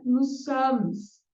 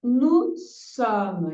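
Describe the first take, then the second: First: "nous sommes" with the S sounded, nus som; wrong, S pronounced. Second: "Nous sommes" with the S of nous silent; no final S. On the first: Teacher shows the wrong way, sounding the S. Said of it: "Não é nous sommes". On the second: Teacher shows nous sommes without the S. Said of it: "Não vou pronunciar esse S". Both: Shown as a demonstration.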